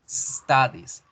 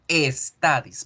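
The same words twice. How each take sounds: First: It starts directly with a hissing s. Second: An e vowel is added before the s. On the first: The speaker calls it right. "se pronuncian como el sisigeo" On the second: The speaker calls it wrong. "en español tendemos a poner la letra E antes de la S"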